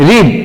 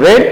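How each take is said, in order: First: রিড said as present read, rhyming with need; read as reed. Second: রেড said as past read, short like red. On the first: Teacher showing students the present sound, clearly. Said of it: "তখন উচ্চারণটা হবে". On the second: Teacher showing students the past sound, clearly. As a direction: say রেড short, rhyming with bed. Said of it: "রিডের past উচ্চারণ হচ্ছে রেড". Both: Shown as a demonstration.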